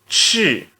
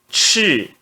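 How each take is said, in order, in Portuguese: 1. É dito com o quarto tom. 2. É dito com o quarto tom.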